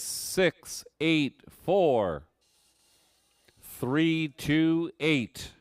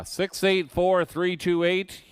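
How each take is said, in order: First: Each digit slow and spaced; slow number readout. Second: Six eight four three two eight higher and louder; excited number call. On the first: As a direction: spell out six eight four three two eight. Reads winning number slowly. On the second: Repeats number to winner. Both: Acted.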